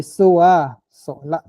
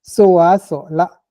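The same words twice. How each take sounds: First: "Soa" strong, "sola" rising at the end; "Soa, sola" said with the habitual rise. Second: "Soa" loud and lifted, then "sola" rising; "Soa, sola" with the habitual rising tone. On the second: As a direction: stress "Soa" then let "sola" rise. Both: Shown as a demonstration. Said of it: "pour montrer l'habituel".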